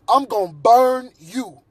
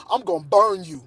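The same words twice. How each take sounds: First: "I'm gonna burn you" said slow and firm, with weight on "burn"; slow emphatic warning. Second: Said in the usual way. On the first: Real, not acted. Man warning anyone who enters his apartment, slow and emphatic. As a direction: lean on "burn" and slow right down.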